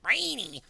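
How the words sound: It is said imitating another man's voice.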